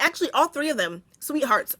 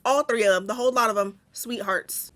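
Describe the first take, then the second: First: Put-on switching to a sugary defence of the girls; mock-sweet, protective; sudden sweet tone. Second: Trailing into a softer, tender sweethearts; soothing, affectionate correction; softer sweet tone. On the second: Pretend. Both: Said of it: "I wanna change my tone so quickly".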